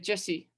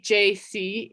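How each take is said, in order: First: The letters blur together in a southern accent. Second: Two letters are said separately and distinctly. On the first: "it sounded like Jesse ... like that" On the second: "you hear it very clearly, very distinctly"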